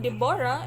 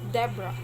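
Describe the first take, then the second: First: The middle vowel is fully pronounced. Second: The middle vowel is silent. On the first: The speaker calls it wrong. "instead of saying Deborah" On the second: The speaker calls it right. "with silent O O in their name"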